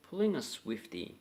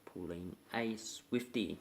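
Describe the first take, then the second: First: Said in the usual way. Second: Pulling a Swiftie said slow and clear, each word spaced; introducing the slang term slowly; slow, careful teaching take. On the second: Shown as a demonstration. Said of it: "today we're about".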